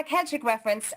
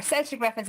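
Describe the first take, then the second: First: "Celtic" said with a hard K, KEL-tic. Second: "Celtic" said with a soft S, SEL-tic. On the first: Host slips and says "Celtic" as KEL-tic. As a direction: say "Celtic" like kel-tic, the football-club slip. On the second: Host corrects himself, saying "Celtic" as SEL-tic. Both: Real, not acted. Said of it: "I should say".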